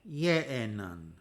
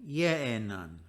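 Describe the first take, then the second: Both takes have the same delivery.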